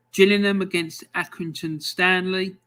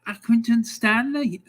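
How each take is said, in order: First: Said in the usual way. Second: Higher, mock Scouse voice for Accrington Stanley; terrible Scouse accent. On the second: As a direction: ham up a bad Liverpool accent on Accrington Stanley. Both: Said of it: "my terrible Scouse accent".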